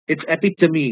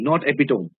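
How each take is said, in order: First: The word is said with four syllables. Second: The word is said with three syllables. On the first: The speaker calls it right. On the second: The speaker calls it wrong. "they pronounce this word in an incorrect way"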